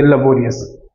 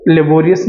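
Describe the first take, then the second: First: लेबोरियस with a weak "luh" start, lə-BOR-ee-us; correct pronunciation. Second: लेबोरियस starting with a full "le"; wrong pronunciation. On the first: Teacher giving students the correct लेबोरियस. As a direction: say लेबोरियस the right way. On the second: Teacher reminding students of the wrong लेबोरियस. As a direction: say लेबोरियस the mistaken way. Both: Shown as a demonstration. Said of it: "लेबोरियस नहीं पढ़ेंगे".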